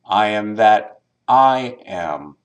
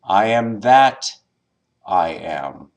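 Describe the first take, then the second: First: The stress is on the second I. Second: The stress is on the word that.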